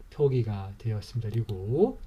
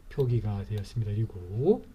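The two takes are said the same way.

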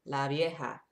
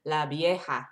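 First: La vieja said as la vieha with a clear v; la vieja with a plain English v. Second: La vieja with the V said as B. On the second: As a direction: say la vieja with a b sound: la bieha. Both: Shown as a demonstration. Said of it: "sometimes V's are like a B sound".

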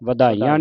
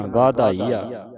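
First: ਵਧਾਈਆਂ with short first vowel, "va-dhaiya"; quick short "va" at the start; wrong reading. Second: ਵਾਧਾਈਆ with long first "aa"; slow, drawn-out "vaa-dhaiya"; correct reading. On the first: Teacher shows the misreading to avoid, "vadhaiya". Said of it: "ਨਹੀਂ ਪੜ੍ਹਨਾ". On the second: Teacher models the word for students, long "vaa". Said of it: "ਵਧਾਈਆਂ ਨਹੀਂ ਪੜ੍ਹਨਾ". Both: Shown as a demonstration.

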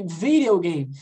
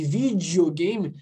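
First: "videogame" with the D as a quick tapped R; English pronunciation. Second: "videogame" with the D softened to "dji"; Brazilian pronunciation. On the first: Teacher contrasting English with Brazilian speech, "videogame" with tapped D. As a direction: say "videogame" the American way, tapping the D. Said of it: "eles não falam videogame". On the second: Teacher showing the pronunciation from Brazil, "videogame" with "dji" D. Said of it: "é do Brasil". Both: Shown as a demonstration.

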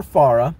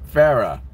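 First: "Farah" with an open "ah" in the first syllable; alternative pronunciation. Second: "Farah" with first vowel as in "fair"; trying a pronunciation. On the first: Streamer offers a second guess at the name, "Farah" said FAR-uh. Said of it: "One of the two". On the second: Streamer attempts a viewer's name, "Farah" said FAIR-uh. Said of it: "I'll try to pronounce your name". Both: Shown as a demonstration.

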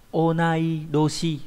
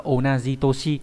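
First: Onai doshi said slowly and carefully, doshi with voiced d; correct reading. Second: Said in the usual way. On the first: Shown as a demonstration. Teacher correcting students on the reading, slow careful onai doshi. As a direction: spell out onai doshi syllable by syllable, not onaji toshi. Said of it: "Doshi và onai, không phải onaji". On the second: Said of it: "không phải là onaji toshi".

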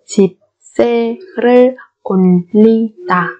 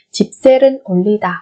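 First: Slow 집세를 올리다 with gaps between syllables. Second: Said in the usual way. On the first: Shown as a demonstration. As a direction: sound out 집세를 올리다 piece by piece. (đọc 집세를 올리다 chậm, tách từng âm)

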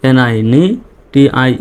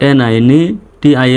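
The two takes are said the same way.

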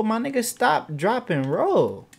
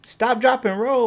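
First: High then drawn slow, word by word; slow spelled out. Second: High, loud barked instructions; urgent shout. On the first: Gamer slowly repeating the drill to his dumb sim. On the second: Gamer yelling fire safety at his burning sim. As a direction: shout the drill at him. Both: Real, not acted.

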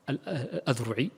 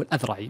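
First: الأذرعي said slowly with "u" vowels, "al-Adhru'i"; mispronunciation with damma. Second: الأذرعي with "a" vowels, "al-Adhra'i"; corrected pronunciation with fatha. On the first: Teacher quoting how many brothers misread الأذرعي, damma mispronunciation "Adhru'i". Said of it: "كثير من الإخوان ينطقها بالضم". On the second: Teacher correcting the common misreading of الأذرعي, fatha pronunciation "Adhra'i". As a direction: say الأذرعي with an open "a" after the dhal, "Adhra'i". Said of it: "وإنما هو الأذرعي بفتح ال-، الذال". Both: Shown as a demonstration.

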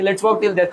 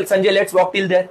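First: Said in the usual way. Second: Slow, gentle invitation; slow old lady. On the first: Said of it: "तो ठीक है". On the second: Retold or imitated. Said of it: "बोलते". (धीमा, कोमल बुज़ुर्ग न्योता)

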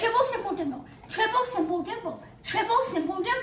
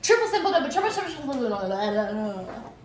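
First: Slow tongue twister. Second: Fast tongue twister. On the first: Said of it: "That was slow". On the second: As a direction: rattle it off quickly and loudly. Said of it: "It has to be like". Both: Shown as a demonstration.

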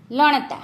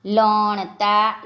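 First: Said in the usual way. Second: લણતા very slowly, syllable by syllable; slow word demonstration. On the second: Shown as a demonstration. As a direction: stretch out લણતા for learners. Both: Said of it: "આપણે શબ્દો જોઈએ".

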